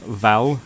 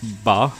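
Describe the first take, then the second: First: The syllable begins with a V sound. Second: The syllable begins with a B sound. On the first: The speaker calls it wrong. "instead of uh, Val" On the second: The speaker calls it right. "the V is is pronounced more with a B sound"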